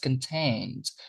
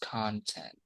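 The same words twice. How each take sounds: First: The stress is on the second syllable. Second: The stress is on the first syllable. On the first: It means satisfied. "when this is the pronunciation, we're talking about an adjective" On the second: It means material seen on the internet or TV. "we say con"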